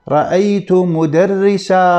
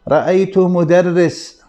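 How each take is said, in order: First: The last word ends with a long 'a' vowel. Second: The last word ends on a bare consonant. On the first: The speaker calls it right. "عند الوقف في حالة النصب نقول" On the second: The speaker calls it wrong. "هذا اللفظ خطأ"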